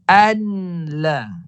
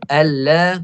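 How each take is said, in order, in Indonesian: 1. Bunyi n diucapkan sebelum l. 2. Bunyi n langsung bergabung ke l. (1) "dia matikan nun ni... Itu salah" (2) "Dia kena masuk"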